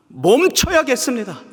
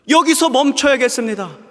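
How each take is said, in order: First: Loud vow. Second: 여기서 hit high and loud before 멈춰야겠습니다; stress on 여기서. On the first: Repeated vow, first take. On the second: A sinner vowing to God, stress on 여기서. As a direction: lean hard on 여기서, then fall away. Repeated vow, stress added. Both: Acted.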